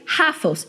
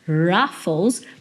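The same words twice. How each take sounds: First: The word starts with a breathy h-like sound. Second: The word starts with a curled-tongue retroflex r. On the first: The speaker calls it wrong. "Eu falei Ruffles" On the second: The speaker calls it right. "em vez de Ruffles, porque no inglês esse R inicial... ele é um R retroflexo"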